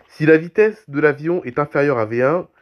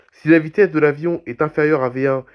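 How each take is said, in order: Both takes have the same delivery.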